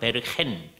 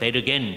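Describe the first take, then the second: First: The name is said the Dutch way. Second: The name is said the German way. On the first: "화란어로는 베르헨" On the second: "독일어로는 베르겐"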